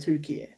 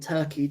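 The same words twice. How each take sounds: First: The name is said the Turkish way. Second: The name is said the usual English way. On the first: This is the new official name the country wants. "to Turkey" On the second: This is the old name used in foreign languages. "from Turkey"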